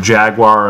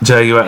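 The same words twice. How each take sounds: First: Jaguar is said with an American pronunciation. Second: Jaguar is said with a British pronunciation.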